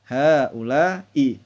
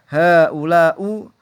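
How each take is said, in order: First: The word ends in an i vowel. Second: The word ends in an u vowel. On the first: The speaker calls it right. "tapi harus" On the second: The speaker calls it wrong. "Tidak boleh dibaca"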